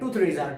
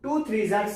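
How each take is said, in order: First: Threes and are blend quickly into threeja. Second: Threes and are are said as separate words. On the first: "एकदम speed पढ़ते हैं ना तो वो थ्रीजा हो जाता है" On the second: "लेकिन होता क्या है"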